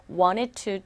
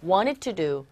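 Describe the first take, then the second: First: "wanted to" with both T sounds crisp and clear; full T in wanted to. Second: "wanted to" as "wanit u", the T after N dropped; softened T in wanted. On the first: Teacher shows the wrong careful way to students. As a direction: say "wanted to" spelling-style, every T released. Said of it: "wanted to로 들리지 않고". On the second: Teacher models the native reduced sound for students. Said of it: "T음이 굉장히 약화되어져서". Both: Shown as a demonstration.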